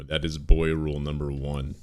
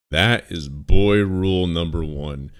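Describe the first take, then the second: First: Said in the usual way. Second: Slower and louder, every word weighted; emphatic repeat. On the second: Real, not acted. Streamer repeating his rule to chat, slow and emphatic. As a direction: lay down the law, slowly and firmly.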